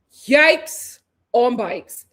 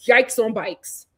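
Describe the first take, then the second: First: Very slow, loud "Yikes", pause, "on bikes"; drawn-out emphasis. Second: Low, slowed "Yikes on bikes"; catchphrase aside. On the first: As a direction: stretch "Yikes" and break before "on bikes". Repeats catchphrase, stretched for emphasis. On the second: Same catchphrase said twice, second stretched. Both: Real, not acted.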